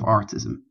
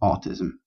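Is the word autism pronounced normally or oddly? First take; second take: oddly; normally. First: The word is pronounced in an odd, garbled way. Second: The word is pronounced in the normal way. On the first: The speaker calls it wrong. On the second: The speaker calls it right.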